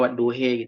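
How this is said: The final vowel is a fronted 'eh'.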